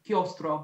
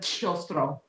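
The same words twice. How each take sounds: First: The c is unaspirated, closer to a g. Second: The c is breathy and aspirated. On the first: The speaker calls it right. "It should sound a little closer to a G" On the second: The speaker calls it wrong. "the C's as well are a little bit wet"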